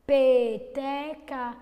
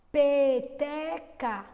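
First: Peteca slowly and louder, stressing the P; drawn-out demo word. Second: Peteca stretched slowly, louder; drawn-out demo word. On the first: Teacher repeating Peteca to isolate the P sound. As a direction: draw out Peteca so the P stands out. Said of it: "O som inicial foi o P". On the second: Teacher stretching Peteca so pupils hear the first sound. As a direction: drag out Peteca syllable by syllable. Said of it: "Peteca começou com F?". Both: Shown as a demonstration.

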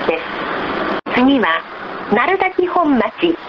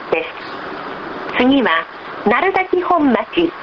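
No difference in how they are said.

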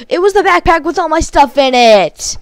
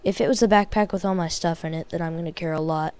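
First: High, loud frustrated yell of realization; angry shout. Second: Said in the usual way. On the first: Real, not acted. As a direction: shout it at the screen in real rage. Realizes backpack was lost, yells.

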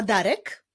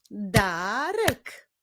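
First: Said in the usual way. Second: "Darek" as long da, then rek; "Darek" drawn out by syllables; split into syllables. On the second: Shown as a demonstration. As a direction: stretch "Darek" into two beats. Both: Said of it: "imię zbudowane z dwóch".

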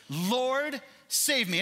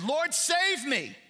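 First: Pleading cry. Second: High, strained cry for help, slow; desperate plea. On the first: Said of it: "I have said this very phrase". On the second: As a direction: cry out to God as if going under. Preacher voices desperate plea. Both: Retold or imitated.

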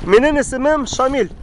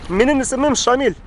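Both takes have the same delivery.

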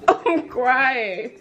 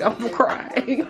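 First: Laughing so hard it sounds like sobbing; wheezing laughter with tears; crying with laughter. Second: Laughing till tears come; giggling through the words; crying with laughter. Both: Real, not acted.

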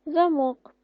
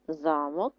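First: ЗаМОК, high on the stressed end; za-MOK, high, weight at the end; stress on second syllable. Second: ЗАмок, low and front-stressed; ZA-mok, low, weight up front; stress on first syllable. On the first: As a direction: answer Замок punching МОК. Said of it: "наголос на другий склад". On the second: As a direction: answer Замок leaning on ЗА. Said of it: "наголос на перший". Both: Shown as a demonstration.

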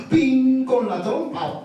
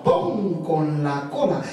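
First: "pin" dicho más agudo y fuerte. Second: "pon" dicho más grave y suave. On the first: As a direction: marca el "pin" hacia arriba. ("pin" agudo frente al "pon" grave) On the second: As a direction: baja la voz en "pon". ("pon" grave frente al "pin" agudo) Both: A narrator's reading. Juego rítmico pin pon.

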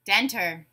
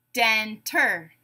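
First: Said in the usual way. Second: "Denter" split in two, den-ter; syllable by syllable. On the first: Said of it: "you tell me the whole word". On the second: Shown as a demonstration. Teacher giving a word to blend, said syllable by syllable. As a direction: leave a gap between the beats of "Denter". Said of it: "say the syllables in a word".

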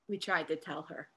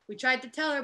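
First: Lower, much softer, half under the breath; quiet aside. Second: Said in the usual way. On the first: Acted. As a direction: mutter it, repeating the point to yourself.

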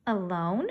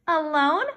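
First: Said in the usual way. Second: Indignant surprise. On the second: Acted. Fern echoes, indignant.

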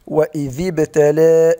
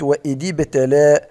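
First: وإذ with a clear ذ; وإذ ابتلى with the voiced th; correct pronunciation. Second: وإذ said with a d; وإذ ابتلى heard with d instead of th; wrong pronunciation. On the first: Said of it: "وكذلك بالنسبة". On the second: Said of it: "سمعت". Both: Shown as a demonstration.

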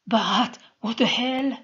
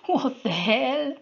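First: Fearful shout. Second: Higher, louder frightened cry; panicked repeat. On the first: Soldier shouting in fear at Sol. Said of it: "shouted the man in fear and resentment". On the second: Soldier panicking as his power fails. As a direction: echo it in rising panic. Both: A narrator's reading.

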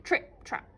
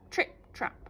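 Both takes have the same delivery.

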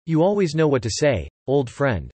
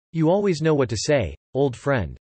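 Both takes have the same delivery.

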